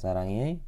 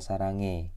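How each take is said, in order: First: The ending is pronounced as two vowel sounds. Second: The ending is pronounced as a single 'e'. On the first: "bisa sarang ei" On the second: "bisa sarange"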